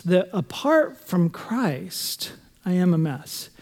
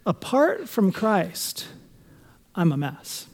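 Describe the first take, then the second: First: Slow, stressing "apart" and "am"; slow emphatic phrase. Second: Slow, weighty, stressing "apart"; slow emphatic phrase. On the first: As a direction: drag out "apart" and punch "am". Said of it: "help us understand that". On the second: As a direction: lean on "apart from Christ", slowly. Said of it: "add a little phrase in front of it". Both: Shown as a demonstration.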